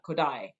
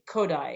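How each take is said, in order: First: The stress is on the second syllable. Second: The stress is on the first syllable. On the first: The speaker calls it wrong. "and not Kodai" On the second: The speaker calls it right. "Hungarian language has lots of of strong syllables at the front of the word, which is why we say Kodai"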